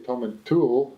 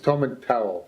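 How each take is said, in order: First: The last syllable sounds like 'tool'. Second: The last syllable sounds like 'towel'. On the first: This is how people from Turriff say it. The speaker calls it wrong. "I'm from Turriff, and we would say Tom and Tool" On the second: This is the accepted way to say the name. The speaker calls it right. "That's the correct pronunciation"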